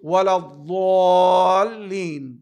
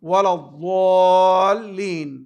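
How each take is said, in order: The two takes are said the same way.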